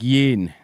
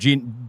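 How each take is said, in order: First: The name begins with a Y sound. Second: The name begins with a J sound. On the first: The speaker calls it right. "but it's more like Yin" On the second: The speaker calls it wrong. "for me, it's more like Jin"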